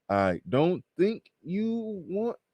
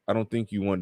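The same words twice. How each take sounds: First: It is read slowly, word by word. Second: It is read at a normal, flowing pace.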